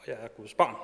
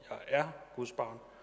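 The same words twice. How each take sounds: First: The stress falls on the word barn. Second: The stress falls on the word er.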